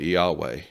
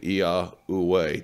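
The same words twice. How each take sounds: First: The final syllables are not emphasized. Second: The final syllables are emphasized. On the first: "they don't emphasize the last two syllables" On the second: "That is the Tetragrammaton as it should be pronounced"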